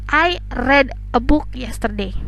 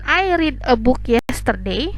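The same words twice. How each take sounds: First: Read has its past-tense pronunciation. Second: Read has its present-tense pronunciation. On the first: The speaker calls it right. "pada saat pronunciation kita ubah menjadi read" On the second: The speaker calls it wrong. "Jadi kalimatnya bukan"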